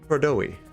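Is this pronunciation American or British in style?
British. It is said with a guessed British English pronunciation. "how would I say this if I was English English?"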